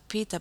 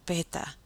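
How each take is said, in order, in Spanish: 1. La primera vocal suena como 'ee'. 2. La primera vocal suena como 'eh'. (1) "En inglés se pronuncia pita" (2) "pero vamos a decir peta"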